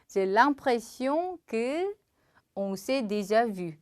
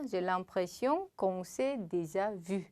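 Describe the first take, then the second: First: 'Que' and 'on' are said as two separate words. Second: 'Que' and 'on' are run together as one syllable.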